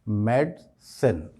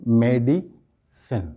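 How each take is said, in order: First: The 'di' syllable carries no stress. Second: The 'di' syllable carries stress. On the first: The speaker calls it right. "इस लफ्ज़ का सही pronunciation क्या होगा?" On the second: The speaker calls it wrong. "हम आय पर stress करते हैं"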